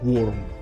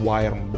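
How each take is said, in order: First: The word sounds exactly like 'worm'. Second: The word does not sound like 'worm'. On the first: The speaker calls it right. "Tipe ini dibacanya Worm" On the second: The speaker calls it wrong. "bukan Wyrm"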